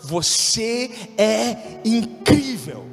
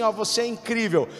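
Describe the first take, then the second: First: It is said earnestly, from the heart. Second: It is said in an offhand, careless way.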